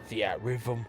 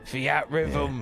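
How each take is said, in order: First: It is said in the speaker's normal accent. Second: It is said in a British accent.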